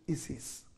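It uses a non-American English pronunciation. "In other parts of the English-speaking world, they pronounce it Isis"

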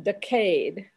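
It is said with a British pronunciation. "you Brits say it like it is"

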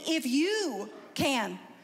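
It is said as a forceful exclamation.

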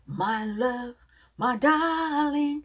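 It is said warmly, full of feeling. The speaker calls it right. "어떻게? ... 사랑을 고백하는 건데"

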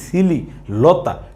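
The word is split into separate broken parts. The speaker calls it wrong. "এমনি ভাঙে ভাঙে বলি তাহলে এটা শুনতে খারাপ শোনা যাবে"

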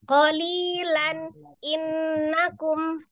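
A pause separates the two words. "yang terjeda tuh gini"

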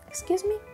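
It sounds calm and neutral.

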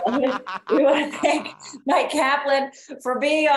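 It is said in a put-on announcer voice.

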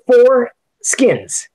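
It is said as two words with a break. It is the name of the wine. The speaker calls it right. "That gap between the words has never been more important"

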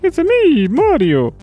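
It is said in a Mario impression.

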